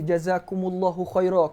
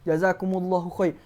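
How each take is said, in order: First: The last word ends with an added a. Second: The last word ends without a final vowel. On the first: "kena tambah a belakang" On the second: "Kan kita tulis Melayu kan"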